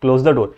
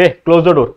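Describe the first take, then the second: First: Gentle, lower-pitched request; affectionate request. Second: Mild demo of an order; giving an order. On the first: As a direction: ask kindly, as a favour. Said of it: "या फिर प्यार से ही बोलूंगा". (प्यार से अनुरोध करते हुए) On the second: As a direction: call out a brief command to someone. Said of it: "मैं जोर से भी बोल रहा हूं तो ऑर्डर दे रहा हूं". (हल्के से आदेश देते हुए) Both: Shown as a demonstration.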